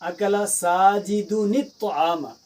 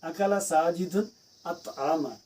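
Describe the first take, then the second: First: The final n runs straight into the next word. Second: Each word is said separately, with its own beginning. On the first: "जब मिलाकर पढ़ते हैं" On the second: "हमने लफ्ज़ लिखा"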